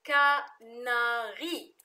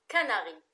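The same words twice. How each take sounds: First: "كناري" slowly stretched as kaa, naa, rii; syllable by syllable. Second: Said in the usual way. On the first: Shown as a demonstration. Teacher shows learners the three syllables, "كناري" slowly split as ka-na-ri. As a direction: sound out "كناري" in three long, louder syllables. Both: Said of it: "ثلاث مقاطع".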